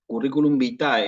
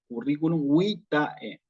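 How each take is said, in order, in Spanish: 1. Vitae se acentúa en su última sílaba. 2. Vitae se acentúa en su primera sílaba. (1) "a la A le ponen el acento" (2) "voy a decirlo curriculum vitae"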